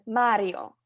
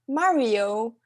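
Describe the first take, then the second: First: It is said with an Italian accent. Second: It is said with an American accent. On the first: The speaker calls it right. "rather than Mario" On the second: The speaker calls it wrong. "You're gonna say Mario"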